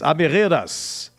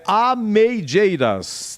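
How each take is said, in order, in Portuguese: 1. Fala-se do jeito castelhano, do espanhol. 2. Lê-se como está escrito, ao estilo português. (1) "Deve ser castelhano" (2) "ao pé da letra é"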